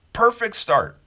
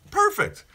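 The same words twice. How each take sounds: First: Perfect start said high and loud, with a falling finish; emphatic. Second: Perfect squeaked very high, then falling; delighted echo. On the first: To his viewers, about starting days positively, emphatic and bright. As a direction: land it like a happy verdict. Closing his hopeful morning wish. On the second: To his viewers, echoing his own verdict, delighted and high. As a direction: repeat it with a burst of delight. Repeats the word, even higher. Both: Real, not acted.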